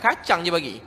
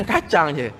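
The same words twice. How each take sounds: First: Said in the usual way. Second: A little laugh before the words; chuckling repeat. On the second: Real, not acted. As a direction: laugh at how little it was. Laughing repeat of the meagre food.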